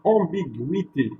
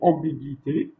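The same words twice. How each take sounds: First: The u after the g is pronounced. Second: The u after the g is silent. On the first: The speaker calls it right. "Je vais dire ambiguïté" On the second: The speaker calls it wrong. "je ne vais pas dire ambiguïté"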